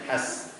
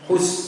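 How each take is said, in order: First: The vowel is an open a. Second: The vowel is a clear rounded u. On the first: The speaker calls it wrong. "bukan has" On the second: The speaker calls it right. "Hus harus jelas"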